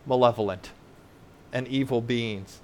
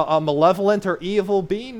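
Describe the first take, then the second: First: "malevolent and evil beings" dropped low and softer; sober answer. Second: "malevolent or evil being" raised as a question; rhetorical question. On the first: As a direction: land "malevolent and evil beings" low, falling, with a pause between. Sober answer to his own question. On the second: Rhetorical question, then answered. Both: Shown as a demonstration.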